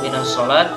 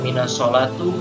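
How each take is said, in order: First: The last word ends without any final vowel. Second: The last word ends with an u vowel. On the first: "Kenapa tidak boleh dibaca" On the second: "Kenapa tidak boleh dibaca"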